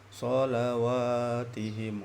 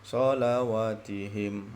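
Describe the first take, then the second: First: The 'wa' vowel is held for two beats. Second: The 'wa' vowel is cut short. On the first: The speaker calls it right. "wa tu dua harakat" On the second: The speaker calls it wrong. "Yang bacaan yang salah"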